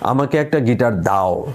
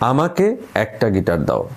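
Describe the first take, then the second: First: The stress is on the fourth word. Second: The stress is on the first word. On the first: It must be given, or it will be taken by force. "যদি চতুর্থ শব্দে জোর দিই" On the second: It must be given to me specifically. "এখন আমি যদি প্রথমটায় জোর দিই"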